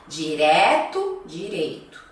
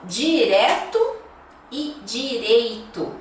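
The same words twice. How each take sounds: First: "Direto" open é, "direito" ei; open vs closed e. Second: "direto" open é, "direito" closed ei, slowly; slow contrast open é vs ei; "direto" open then "direito" closed. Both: Shown as a demonstration. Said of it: "Um aberto, o outro fechado".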